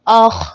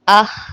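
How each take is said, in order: First: The consonant sounds heavy and full. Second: The consonant sounds thin and light. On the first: The speaker calls it right. "हर हाल में हरूफ़े मुस्तालिया को पुर पढ़ना है" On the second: The speaker calls it wrong. "अगर हम इसको बारीक पढ़ दें"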